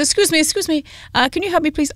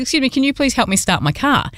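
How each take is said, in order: First: Light imitation of a French accent, pitched up; a hint of a French accent, higher; mock French accent. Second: Said in the usual way. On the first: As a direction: put on a gentle French accent for the stranger asking for help. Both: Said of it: "not gonna keep doing the accent".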